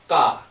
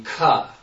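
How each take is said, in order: First: The k has no puff of breath after it. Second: The k is followed by a puff of breath.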